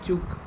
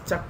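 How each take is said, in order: First: The name is said with an 'oh' vowel. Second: The name is said with an 'uh' vowel. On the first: The speaker calls it right. "you have to pronounce it as only choke" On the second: The speaker calls it wrong. "You should not call it as chuck"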